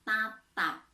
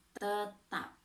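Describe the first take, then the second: First: TATAP said carefully with "a" in both syllables; clear articulation. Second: TETAP said carefully with a schwa first syllable; clear articulation. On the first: Teacher showing pupils a word contrast, clear articulation of "Tatap". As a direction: articulate "Tatap" distinctly, open first vowel. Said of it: "beda dengan tetap". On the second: Teacher showing pupils a word contrast, clear articulation of "tetap". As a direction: articulate "tetap" distinctly, neutral first vowel. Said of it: "beda dengan". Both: Shown as a demonstration.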